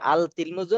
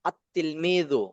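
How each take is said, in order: First: The article is pronounced with a clear 'l'. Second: The 'l' merges into a doubled 't' sound. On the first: The speaker calls it wrong. "আল তিলমিজু না" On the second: The speaker calls it right. "লামের উচ্চারণ হয়েছে ... আত তিলমিজু"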